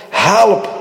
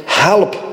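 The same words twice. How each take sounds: First: Second call, more urgent; desperate cry. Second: A rising plea for help; first plea for help; pleading cry. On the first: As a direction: cry out HELP harder, desperate. Second, stronger cry for help. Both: Pretend.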